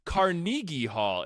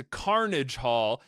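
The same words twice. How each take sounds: First: "Carnegie" as car-NEE-ghee; slow, higher "Carnegie" with stressed long NEE; mispronounced Carnegie. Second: "Carnage" as KAR-nij, slowly; slow, deliberate "Carnage Hall"; Carnage pronunciation. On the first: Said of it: "and they're like". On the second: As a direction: stress the first syllable of "Carnage". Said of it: "some people refer it t". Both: Retold or imitated.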